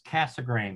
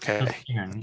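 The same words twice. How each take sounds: First: The last syllable sounds like the word grain. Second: The last syllable does not sound like grain. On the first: The speaker calls it right. "It is Casegrain" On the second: The speaker calls it wrong. "not Casegrain"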